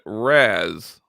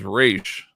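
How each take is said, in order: First: The name is said in an Arabic style. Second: The name is said in the comics' English style. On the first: "the more Arabic pronunciation" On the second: "The official D C pronunciation"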